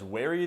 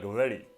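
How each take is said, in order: First: The word starts with a rounded W sound. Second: It starts with a labiodental approximant; the R is flapped. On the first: "instead of pronouncing very as wary" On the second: "they'd pronounce it more like very. Obviously, I just flapped the R"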